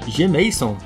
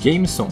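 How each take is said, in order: First: The name is split into a letter and 'Mason'. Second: The name is said as one word, Jameson. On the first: The speaker calls it wrong. "esqueceram que se pronuncia Jameson?" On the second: The speaker calls it right. "digo Jameson"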